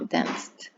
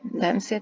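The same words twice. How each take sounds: First: The ending adds no extra syllable. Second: The ending is said as an extra syllable. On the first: The speaker calls it right. "no suena ed" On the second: The speaker calls it wrong.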